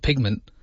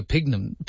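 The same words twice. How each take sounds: First: Said in the usual way. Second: "pigment" clipped to "pigga", the end swallowed; half-said "pigment" ending in "pigga"; fumbled word. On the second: Real, not acted. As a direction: trip over "pigment" so it comes out "pigga".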